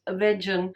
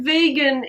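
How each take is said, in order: First: "vegan" said as VEJ-un, soft j; "vegan" with a j sound for the g; mispronounced vegan. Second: Said in the usual way. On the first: Shown as a demonstration. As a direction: say "vegan" to rhyme with "legion", but with a short e. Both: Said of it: "isn't pronounced vegan".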